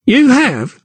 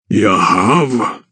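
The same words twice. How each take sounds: First: Much higher sneering crookback; mocking. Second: Lower, slow puzzled giant; echoing giant. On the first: Crookback mocks the count, high scoff. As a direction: scoff at the claim. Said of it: "mocked the crookback". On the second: Giant echoes the crookback, low puzzled. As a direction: repeat it wonderingly. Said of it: "echoed the giant". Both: A narrator's reading.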